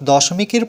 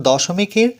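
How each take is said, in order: Both takes have the same delivery.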